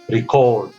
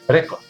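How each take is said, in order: First: The stress is on the second syllable. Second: The stress is on the first syllable. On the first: It is used as a verb. "which is a verb. The stress on the second syllable" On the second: It is used as a noun. "The stress on the first syllable"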